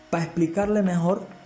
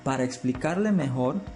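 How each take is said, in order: First: The first word is clipped to 'pa'. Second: The first word is said fully as 'para'. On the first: It sounds careless and unprofessional. The speaker calls it wrong. "eso se oye feísimo" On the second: It sounds more professional. The speaker calls it right. "ahí ya se ve un poco más profesional"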